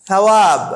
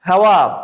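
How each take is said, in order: Both takes have the same delivery.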